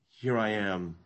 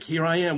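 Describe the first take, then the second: First: It is said reluctantly, with a dry throat. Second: It is said eagerly and brightly.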